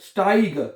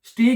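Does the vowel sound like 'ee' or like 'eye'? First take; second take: eye; ee. First: The vowel sounds like 'eye'. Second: The vowel sounds like 'ee'. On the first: The speaker calls it right. "ये बन जाएगा आई" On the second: The speaker calls it wrong. "स्टीग नहीं पढ़ना है इसको"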